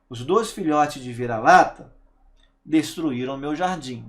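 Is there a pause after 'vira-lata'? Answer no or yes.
yes. There is a pause after the subject. The speaker calls it wrong.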